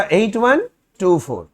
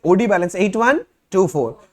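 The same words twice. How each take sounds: First: Each digit spaced out slowly; slow dictation. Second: Said in the usual way. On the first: Shown as a demonstration. Teacher dictating the balance to students, slow and spaced. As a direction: dictate the number slowly so they can write it. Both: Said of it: "कितना था?".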